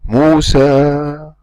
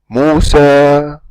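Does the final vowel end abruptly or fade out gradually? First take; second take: fading; fading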